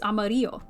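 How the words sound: The word is said with Spanish pronunciation. The speaker calls it right. "if you say it in Spanish, it's amarillo"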